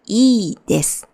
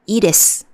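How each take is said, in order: First: The first vowel is held long. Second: The first vowel is short. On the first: "But there are two, so" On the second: "if there's only one I"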